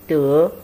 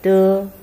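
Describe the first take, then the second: First: The syllable is said with the second tone. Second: The syllable is said with the first tone. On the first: "first and second" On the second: "first and second"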